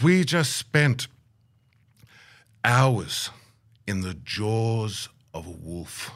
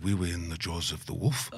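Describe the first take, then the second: First: Very slow, long pauses between phrases; imitated elder, ominous and measured; grave dramatic telling. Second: Low, soft questioning repeat, end lifting; hushed query with a laugh near it; incredulous echo. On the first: Elder's dramatic account of danger. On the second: Retold or imitated. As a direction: repeat it back quietly in amused disbelief. Incredulous echo of elder's words.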